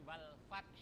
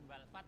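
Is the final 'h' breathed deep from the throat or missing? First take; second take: deep throat; missing. First: The word ends with a deep throaty 'h'. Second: The word ends without a deep throaty 'h'. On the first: The speaker calls it right. "tapi wal fath. Wal fath ada hak" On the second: The speaker calls it wrong. "jangan wal fath"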